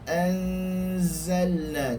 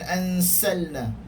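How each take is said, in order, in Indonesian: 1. Konsonan tengah adalah bunyi z yang berdengung. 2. Konsonan tengah adalah bunyi s yang mendesis.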